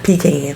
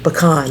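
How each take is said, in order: First: The first vowel is a long e sound. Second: The first vowel is a short e sound. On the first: The speaker calls it wrong. "not pecan" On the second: The speaker calls it right. "which makes it a short E"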